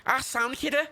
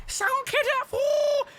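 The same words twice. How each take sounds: First: High Scouse check, rising at the end; Scouse Jimmy. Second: Hammed-up Scouse squawk, very high; Scouse Jimmy. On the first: Acted. Scrapper checking the helper agrees, high rising Scouse accent. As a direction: ask it pitched up in put-on Scouse. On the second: Scrapper to his helper, over-the-top squealed Scouse accent. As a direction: send the Scouse right up into a falsetto. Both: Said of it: "how do people speak like that".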